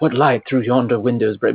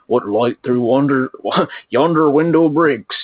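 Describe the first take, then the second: First: It is said in a posh, cultured British accent. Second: It is said in a rough, rural-sounding accent. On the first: This is how people today imagine the play sounding. "what would be called like a posh, you know, British accent" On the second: This is how it was really spoken back then. "but it's actually like"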